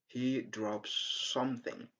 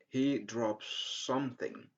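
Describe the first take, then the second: Both takes have the same delivery.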